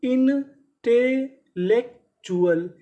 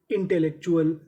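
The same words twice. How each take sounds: First: intellectual spelled out in slow parts; very slow syllable by syllable. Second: Said in the usual way. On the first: Shown as a demonstration. Teacher to students, dictating the word very slowly. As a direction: pull intellectual apart slowly for the class. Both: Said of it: "तो पूरी meaning".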